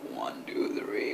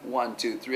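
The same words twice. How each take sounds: First: The voice is made on the incoming breath. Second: The voice is made on the outgoing breath. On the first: "Is simply sucking in and singing" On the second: "instead of going in"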